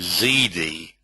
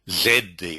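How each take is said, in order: First: The letter is said American-style, like 'zee'. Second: The letter is said British-style, like 'zed'.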